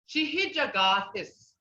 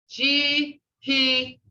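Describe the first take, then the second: First: Said in the usual way. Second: Broken into syllables. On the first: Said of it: "see how I broke up those". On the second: Shown as a demonstration. Teacher showing the class "Shihijagathis", broken up syllable by syllable. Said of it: "see how I broke up those two syllable words".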